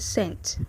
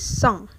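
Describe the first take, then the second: First: It sounds like the English word 'cents'. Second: It is said with French pronunciation. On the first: The speaker calls it wrong. "don't say cent, please, not like fifty cents" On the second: The speaker calls it right. "Say cent"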